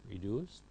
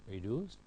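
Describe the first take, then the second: The two takes are said the same way.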